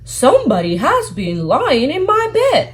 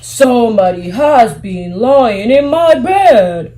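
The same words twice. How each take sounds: First: It is said in a medium voice. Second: It is said in a big, deep voice.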